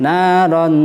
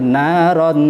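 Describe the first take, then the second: No difference in how they are said.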